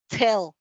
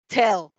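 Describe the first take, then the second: No difference in how they are said.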